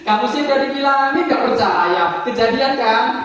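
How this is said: It is said with giggling, playfully. "Yang ketiga pakai giggling namanya. Giggling, giggling itu agak bercanda"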